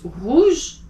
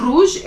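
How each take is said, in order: First: Rouge with the r back in the throat; right rouge. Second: Rouge with an English front r; wrong rouge. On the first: Teacher giving the right rouge. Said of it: "it's rouge". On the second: Teacher showing the wrong rouge. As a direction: say rouge with a tongue-tip r. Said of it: "It's not rouge". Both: Shown as a demonstration.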